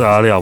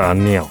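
First: The second syllable starts with an L sound. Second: The second syllable starts with an N sound. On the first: The speaker calls it right. "是阿廖" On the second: The speaker calls it wrong. "不是阿廖"

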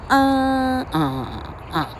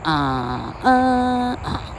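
First: The first syllable is the highest in pitch. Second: The second syllable is the highest in pitch.

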